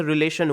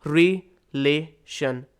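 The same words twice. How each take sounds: First: Said in the usual way. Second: "रिलेशन" very slowly as three pieces, "रि, ले, शन"; split into syllables. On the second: Shown as a demonstration. Teacher dividing the word into three sounds, syllable by syllable. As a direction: pause after each syllable of "रिलेशन". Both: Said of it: "हमने इसको तीन sound में divide".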